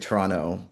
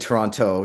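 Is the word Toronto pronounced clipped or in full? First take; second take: clipped; full. First: The word is reduced and its sounds are dropped. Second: Every syllable of the word is fully pronounced. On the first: The speaker is a local. The speaker calls it right. "you don't pronounce it. The more Torontonian you are, the more you just say Toronto" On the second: The speaker is not a local. The speaker calls it wrong. "you don't say Toronto"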